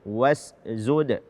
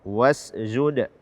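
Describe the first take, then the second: Both takes have the same delivery.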